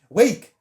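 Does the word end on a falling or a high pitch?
high. The word ends on a high pitch. The speaker calls it wrong. "end all of my sentences like ah on like a high pitch"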